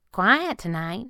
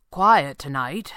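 First: Slow, higher girl, lightly voiced; a hint of the girl, pitched up; girl echoing small talk. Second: Slow, loud masked boss, lightly voiced; a hint of the boss, drawn out; boss offering small talk. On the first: Girl breaks the silence, slow and higher. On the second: Boss breaks the silence, slow and lightly voiced. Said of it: "he offered". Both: A narrator's reading.

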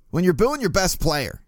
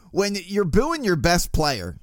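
First: Said in the usual way. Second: Slipping into a slow Baltimore accent; a touch of Baltimore in the vowels, drawn out. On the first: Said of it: "that was a Baltimore accent right there". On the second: Real, not acted. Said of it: "man, that was a Baltimore accent right there".

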